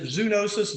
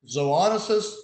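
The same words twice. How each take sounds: First: The first syllable sounds like 'zoo'. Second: The first syllable sounds like 'zo'. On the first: The speaker calls it wrong. "is it zoonosis" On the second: The speaker calls it right.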